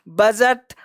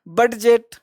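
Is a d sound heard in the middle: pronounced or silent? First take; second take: silent; pronounced. First: No d sound is pronounced in the middle. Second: A clear d sound is pronounced in the middle. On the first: The speaker calls it right. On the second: The speaker calls it wrong.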